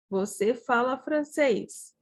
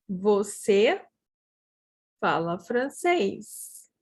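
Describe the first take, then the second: First: Said in the usual way. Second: Long pause after the first word; broken into parts. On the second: Shown as a demonstration. Teacher models a sentence for learners, broken into parts. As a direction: split the sentence into chunks for learners.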